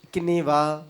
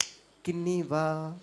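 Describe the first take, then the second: First: Said in the usual way. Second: ఇకినీవా said slowly, each syllable clear; slow careful model. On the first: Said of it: "ఏయ్, మళ్ళీ ఇడ్లీ అనద్దు". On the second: Shown as a demonstration. Teacher models ఇకినీవా slowly so kids stop saying idli. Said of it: "బాగా చెప్పండి".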